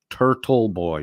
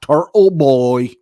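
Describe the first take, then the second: First: The t consonants in Turtle are clearly pronounced. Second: The t consonants in Turtle are dropped. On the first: The speaker calls it right. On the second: The speaker calls it wrong.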